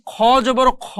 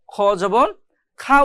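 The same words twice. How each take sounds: First: খ জবর খ with the last খ as a rounded KHO; heavy "খ", vowel toward O; thick heavy KHO. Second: খ জবর খা ending on an open A vowel; open KHA. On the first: Teacher recalling the drill, খ said thick as KHO. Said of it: "মোটা করে পড়তে হয়". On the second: Teacher showing the expected reading, খা with open A. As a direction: say "খা" as KHA, unrounded. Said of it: "খা উচ্চারণ হয়". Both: Shown as a demonstration.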